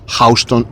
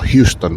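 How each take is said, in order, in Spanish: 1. La primera sílaba suena como 'house'. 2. La primera sílaba suena como 'hue'. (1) "cómo he pronunciado Houston" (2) "y no Houston"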